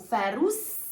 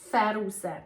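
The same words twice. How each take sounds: First: The final S sound is strong. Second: The final S sound is soft. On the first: Being outside the house. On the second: Going out of the house.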